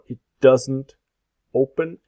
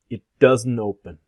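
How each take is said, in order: First: Each word is said carefully and separately. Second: The words are reduced and run together.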